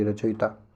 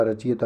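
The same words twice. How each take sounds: First: Said in the usual way. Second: रचयिता said as rachiyata, with ee after ch; long i. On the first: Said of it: "छोटी की". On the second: Shown as a demonstration. Teacher quoting a misspelling, रचयिता said as rachiyata. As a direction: move the i forward in रचयिता. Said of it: "बड़ी की मात्रा नहीं".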